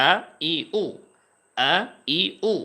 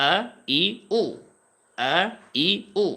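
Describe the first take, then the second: The two takes are said the same way.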